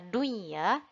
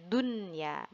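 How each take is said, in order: First: The n sound is blended and not clearly heard. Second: The n sound is pronounced clearly and separately. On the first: The speaker calls it wrong. "Bukan kita baca dunya" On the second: The speaker calls it right. "Baca dengan jelas nunnya"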